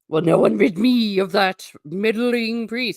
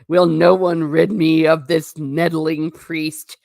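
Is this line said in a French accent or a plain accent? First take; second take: French; plain. First: It is said in a put-on French accent. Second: It is said in the speaker's ordinary accent.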